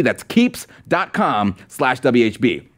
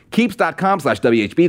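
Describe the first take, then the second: First: Slow, spelled-out URL. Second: Said in the usual way. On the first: Shown as a demonstration. Host repeating the sponsor address for viewers, slowly. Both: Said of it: "repeating the sponsor URL".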